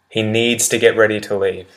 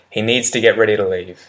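No difference in how they are said.

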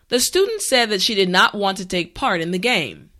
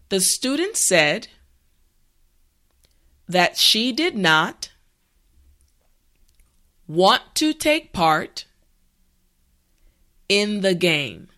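First: The sentence is spoken at a natural speed. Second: The sentence is spoken slowly and carefully. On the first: "the last time at a regular pace" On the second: "this time repeat after me"

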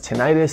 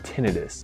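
First: The stress is on the second syllable. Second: The stress is on the first syllable. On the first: "It's commonly pronounced as tinnitus, and that's okay" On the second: "the medical field pronounces it tinnitus"

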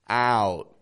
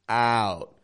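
First: The vowel is open, with a wide jaw. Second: The vowel is open, with a wide jaw.

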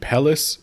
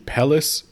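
First: The double L is sounded as an L. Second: The double L is sounded as an L.

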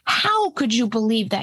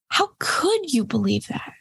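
First: It sounds angry, with strong stress on how. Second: It sounds curious, like a genuine open question. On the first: The speaker is judging and accusing the listener. The speaker calls it wrong. "You put the stress on the how, right? And there's a sense of threat and anger" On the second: The speaker genuinely wants to understand the belief. The speaker calls it right. "You turn it to"

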